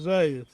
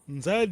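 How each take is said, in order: First: It starts with a plain z sound, no nasal. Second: It starts with a nasal n before the z. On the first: This is the form that came from a foreign mispronunciation. The speaker calls it wrong. "Foi a má pronúncia do Diogo Cão" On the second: This is the original local form meaning big river. The speaker calls it right. "que é Rio Grande"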